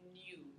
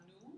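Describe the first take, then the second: First: A y-glide comes before the oo vowel. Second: A plain rounded oo vowel with no glide. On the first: The speaker calls it right. "you do a glide" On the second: The speaker calls it wrong. "not new, which was a beautiful lip vowel"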